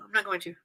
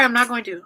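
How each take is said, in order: First: Steadying herself. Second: Holding back tears. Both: Real, not acted. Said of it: "I'm trying not to cry".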